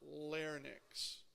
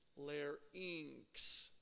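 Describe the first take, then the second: First: The word does not rhyme with pharynx. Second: The word rhymes with pharynx. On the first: The speaker calls it wrong. "It's not larynx" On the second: The speaker calls it right. "It's larynx, right? Just like pharynx"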